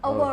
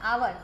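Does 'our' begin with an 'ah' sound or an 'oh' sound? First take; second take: oh; ah. First: The word begins with an 'oh' vowel. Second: The word begins with an 'ah' vowel. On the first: The speaker calls it right. "એની જગ્યાએ ઓવર" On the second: The speaker calls it wrong. "આવર બોલ્યા"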